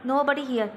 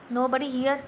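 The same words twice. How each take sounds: First: It is said as a statement. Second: It is said as a question. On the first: It states a fact. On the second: It echoes the statement in surprise or to check.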